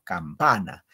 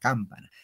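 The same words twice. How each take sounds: First: The stress is on the second syllable. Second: The stress is on the first syllable. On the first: The speaker calls it right. "Entonces el acento va en pa" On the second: The speaker calls it wrong. "No se dice campana"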